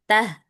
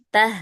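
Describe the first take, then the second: First: The h is soft and relaxed. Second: The same.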